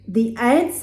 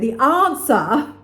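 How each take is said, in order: First: The word has a non-Australian pronunciation. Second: The word has an Australian pronunciation.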